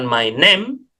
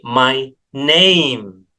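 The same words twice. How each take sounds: First: The vowel in name is one pure vowel. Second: The vowel in name glides as a diphthong. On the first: The speaker calls it wrong. "Jadi bukan my name" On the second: The speaker calls it right. "tetapi my name"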